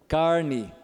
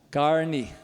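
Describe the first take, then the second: Both takes have the same delivery.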